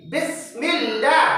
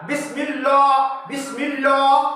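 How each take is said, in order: First: बिस्मिल्लाह slow with a light, thin L; thin Bismillah right. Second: बिस्मिल्लाह with a round, heavy L ending in o; wrong heavy Bismillah. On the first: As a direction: say बिस्मिल्लाह with a fine L, lips spread. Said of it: "मीम लाम जेर मिल". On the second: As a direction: say बिस्मिल्लाह the wrong way, full-mouthed L. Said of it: "तो गलत होगा वो". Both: Shown as a demonstration.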